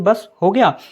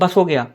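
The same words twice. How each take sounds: First: It is said with a brief pause inside. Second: It is said quickly without any pause. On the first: "अगर आप अर्ध विराम लगा तो ऐसे" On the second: "उसको जो स्पीड में बोलते हैं"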